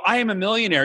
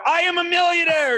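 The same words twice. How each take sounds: First: Said in the usual way. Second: "millionaire" pushed out much higher and insistent; trying harder. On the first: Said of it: "you go". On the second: Shown as a demonstration. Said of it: "and then you try harder".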